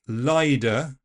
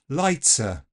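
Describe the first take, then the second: First: The T is replaced by a D sound. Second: The T is an affricate with a hiss. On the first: "A voiced D is also possible" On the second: "this affrication"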